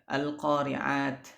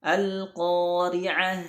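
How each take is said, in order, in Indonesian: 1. Kata ini berakhir dengan bunyi t. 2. Kata ini berakhir dengan bunyi h. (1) "bukan dibaca, ya, al-qari'at" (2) "dibaca ha"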